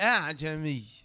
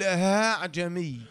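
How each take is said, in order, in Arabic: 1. الهمزة الثانية همزة كاملة. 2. الهمزة الثانية تُنطق هاءً خالصة. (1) "وكان أصلها" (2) "بعض القراء ينطقها هاء صرف"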